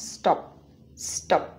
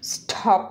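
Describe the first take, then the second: First: "স্টপ" with no puff after the t; unaspirated t. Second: "স্টপ" with a strong puff after the t; breathy burst on the t in "স্টপ"; wrongly aspirated t. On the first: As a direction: keep the t in "স্টপ" tight and dry. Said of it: "এটা উচ্চারণ". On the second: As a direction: say "স্টপ" as s-thop, t heavily aspirated. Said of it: "হবে না". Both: Shown as a demonstration.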